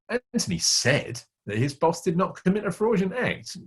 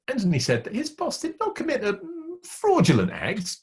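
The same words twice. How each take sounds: First: The word said carries the main stress. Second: The word fraudulent carries the main stress. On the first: He claimed it, but the boss probably did it. "He said he didn't do it, but the meaning is probably he did" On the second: The act was probably borderline. "dot, dot, dot, but he was probably on the edge"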